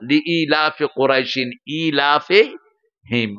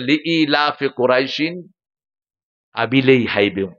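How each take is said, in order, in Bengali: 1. শেষ শব্দটি 'ilafihim' এর মতো শোনাচ্ছে। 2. শেষ শব্দটি 'abilei haibim' এর মতো শোনাচ্ছে। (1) "না চাচা" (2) "আর উনি পড়তেছেন"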